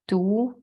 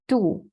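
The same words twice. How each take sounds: First: It is said in the second tone. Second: It is said in the fourth tone. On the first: It means poison. "second tone is poison" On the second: It means belly. "the last one is belly"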